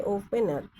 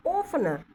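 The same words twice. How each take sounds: First: ओपनर split into o-pe-nar; syllable demo. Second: ओपनर said whole as o-pner, stress on the start; spoken word demo. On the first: Teacher splits ओपनर into syllables for students. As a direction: break ओपनर into its parts. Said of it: "आप ओ यहाँ पे का". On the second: Teacher models ओपनर for her students. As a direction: say ओपनर as one smooth word. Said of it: "ओपनर बोलेंगे ऐसे". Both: Shown as a demonstration.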